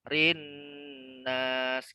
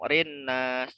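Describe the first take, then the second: First: The n sound is held for a while. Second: The n sound is cut short, not held. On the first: The speaker calls it right. "tapi ditahan. Rinnas ditahan" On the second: The speaker calls it wrong. "jangan langsung rinnas, jangan langsung gitu ya"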